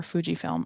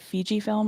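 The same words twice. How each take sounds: First: Fujifilm said as FOO-jee-film; FOO-jee pronunciation. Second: Fujifilm said as FEE-jee-film; FEE-jee pronunciation. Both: Shown as a demonstration. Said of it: "I can never remember".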